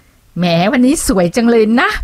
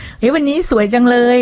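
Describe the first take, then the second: First: A higher, slow, dripping-sarcasm compliment with a drawn-out rise at the end; sarcastic compliment. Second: Sincere compliment. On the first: A snide acquaintance mocking her looks, higher, slow and sarcastic. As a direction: praise her while mocking her. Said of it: "มันดูแบบประชดประชันแดกดันอะไรอย่างเงี้ย". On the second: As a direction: say it as if you truly mean it. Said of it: "ฟังแล้วดูแบบ จริงใจ". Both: Shown as a demonstration.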